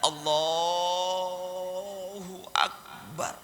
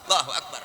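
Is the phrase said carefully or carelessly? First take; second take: careful; careless. First: It is said slowly, with heavy, deliberate emphasis. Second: It is said quickly and offhandedly, without emphasis. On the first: The worshipper wants to impress an onlooker. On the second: No one is watching the worshipper.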